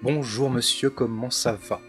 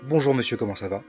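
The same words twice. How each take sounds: First: Every other syllable is given a strong stress. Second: It is said with ordinary, even everyday rhythm. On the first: "8 syllabes dans chaque vers, avec une sur deux accentuées" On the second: "au lieu de dire"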